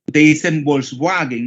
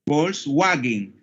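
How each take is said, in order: First: Said in the usual way. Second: Volkswagen said slowly with an f sound, "folswagen"; German pronunciation. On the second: Shown as a demonstration. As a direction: Volkswagen starting on f, drawn out. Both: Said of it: "¿cómo se dice esa marca?".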